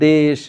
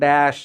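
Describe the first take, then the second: First: The vowel is a closer 'e' sound. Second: The vowel is an open 'ae' sound. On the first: The speaker calls it right. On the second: The speaker calls it wrong.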